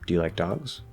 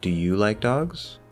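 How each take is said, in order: First: The stress falls on the word dogs. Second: The stress falls on the word you. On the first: "instead of saying" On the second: "Now I'm specifically pointing out you compared to somebody else"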